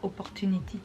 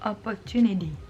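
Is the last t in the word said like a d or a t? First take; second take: t; d. First: The last t is said as a hard t. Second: The last t is said as a soft d. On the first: The speaker calls it wrong. "c'est pas opportunity" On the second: The speaker calls it right. "C'est opportunity"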